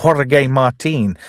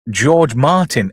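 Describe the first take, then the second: First: Slow mock Spanish pronunciation of the name; Spanish accent. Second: Said in the usual way. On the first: Film recapper giving George's alias, mock Spanish accent. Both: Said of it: "Sorry, I did a voice there".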